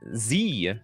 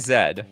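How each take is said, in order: First: The letter is said the American way, zee. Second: The letter is said the Canadian way, zed.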